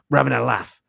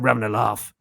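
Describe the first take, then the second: First: It is said with northern English vowels. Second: It is said with southern English vowels. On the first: The speaker calls it wrong. "people get wrong when they impersonate him is they give him northern vowels" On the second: The speaker calls it right. "he's got southern vowels"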